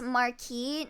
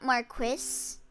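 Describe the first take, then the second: First: The word has a French pronunciation. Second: The word has an English pronunciation. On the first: The speaker calls it right. "It's the French, actually" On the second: The speaker calls it wrong. "not Marquis"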